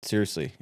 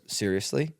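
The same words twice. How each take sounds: First: "Seriously" low with a falling end; firm reply. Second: "Seriously" rising at the end as a question; disbelieving question. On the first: Refusing her late-night invitation, "Seriously" low and falling. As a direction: answer "Seriously" lower, as a falling statement. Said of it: "I'm like". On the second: Caller turned down at night, "Seriously" as a rising question. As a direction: ask "Seriously" with a questioning lift. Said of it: "She goes". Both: Retold or imitated.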